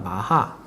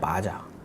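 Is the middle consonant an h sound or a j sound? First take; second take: h sound; j sound. First: The middle consonant is an h sound. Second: The middle consonant is a j sound. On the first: It is read the Spanish way. "스페니시로 H로 읽히니까 마하. 마하라고 하면 되는데" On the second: It is read the English way. "영어식으로 발음하면 마자예요"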